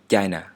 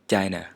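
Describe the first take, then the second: Both takes have the same delivery.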